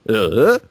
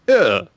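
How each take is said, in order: First: The pitch falls, then rises again. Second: The pitch falls. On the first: "the one where it goes down and then comes back up like" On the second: "the one where your voice goes down like"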